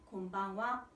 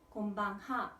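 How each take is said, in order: First: The last syllable is said as wa. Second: The last syllable is said as ha. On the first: This is how it is spoken. The speaker calls it right. "곤방와 라고 발음을 하셔야 됩니다" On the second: This is how it is written. The speaker calls it wrong. "곤방하 라고 쓰지만"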